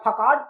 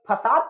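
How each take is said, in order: First: The middle consonant is a K sound. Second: The middle consonant is an S sound. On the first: The speaker calls it wrong. "जबकि इसको फकाट पढ़ना चाहिए" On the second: The speaker calls it right. "हम इसको ये फसाद पढ़ रहे हैं"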